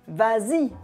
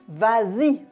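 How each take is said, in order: The two takes are said the same way.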